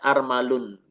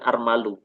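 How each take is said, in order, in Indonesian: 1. Kata ini berakhir dengan bunyi n tambahan. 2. Kata ini berakhir pada vokal biasa, tanpa n. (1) "yang seperti ini dibacanya armalun" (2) "bukan armalu"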